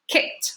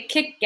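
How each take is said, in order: First: "kicked" as one syllable ending in a T sound; short "kicked" with the ed as t. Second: "kicked" split in two as kick-ked; two-syllable mispronunciation. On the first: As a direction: say "kicked" as kikt, no extra vowel. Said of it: "That's one syllable". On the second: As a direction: sound the "ed" in "kicked" as its own syllable. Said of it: "We don't say kicked". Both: Shown as a demonstration.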